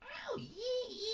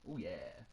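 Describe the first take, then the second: First: It imitates the Cat from Red Dwarf. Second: It is said in a creepy voice.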